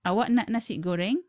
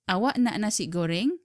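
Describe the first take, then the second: First: The voice rises at the end. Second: The same.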